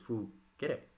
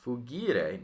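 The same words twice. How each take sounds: First: The middle vowel is a short e. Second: The middle vowel is a long i. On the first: The verb is third conjugation. The speaker calls it right. "It is fugire. Short E" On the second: The verb would be fourth conjugation. The speaker calls it wrong. "it's not fugire, not fugire. If that were so, this would be fourth conjugation"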